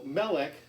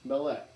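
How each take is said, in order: First: The stress is on the first syllable. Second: The stress is on the last syllable. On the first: The speaker calls it right. "if an accent isn't on the last syllable, I will put a little accent mark" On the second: The speaker calls it wrong. "not Melech"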